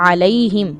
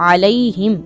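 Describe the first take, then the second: Both takes have the same delivery.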